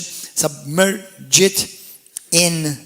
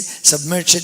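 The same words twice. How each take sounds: First: "submerge it" drawn out very slowly, syllable by syllable; sounded out slowly. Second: Said in the usual way. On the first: Real, not acted. Preacher sounding out submerge it for the congregation, slow and syllable by syllable. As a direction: break "submerge it" into slow, separate pieces.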